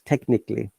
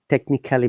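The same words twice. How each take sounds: First: The vowel before the ending is dropped. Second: The vowel before the ending is pronounced. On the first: The speaker calls it right. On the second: The speaker calls it wrong.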